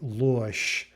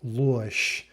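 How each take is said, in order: First: The final consonant is a voiceless SH sound. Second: The final consonant is a voiceless SH sound.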